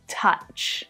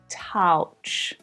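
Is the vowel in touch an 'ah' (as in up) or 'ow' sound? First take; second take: ah; ow. First: The vowel sounds like the u in up. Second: The vowel sounds like ow in couch. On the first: The speaker calls it right. "touch is pronounced with an ah vowel sound" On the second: The speaker calls it wrong.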